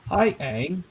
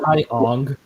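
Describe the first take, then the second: First: The name has the vowel of 'bang'. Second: The name has the vowel of 'long'. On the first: The speaker calls it right. "they pronounce Aang's name right" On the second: The speaker calls it wrong.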